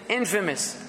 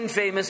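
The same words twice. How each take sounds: First: The stress is on the first syllable. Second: The stress is on the second syllable. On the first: The speaker calls it right. "we say infamous" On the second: The speaker calls it wrong. "we don't say infamous"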